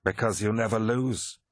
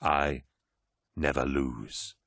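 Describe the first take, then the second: First: Even, matter-of-fact statement; levelly. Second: Low, slow, weighty declaration; grave certainty. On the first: A narrator's reading. Abaddon answers the War Master, levelly. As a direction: state it evenly, no flattery. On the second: Acted. Horus confirms it to four Astartes, low and deliberate. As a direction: drop the pitch and space out the words.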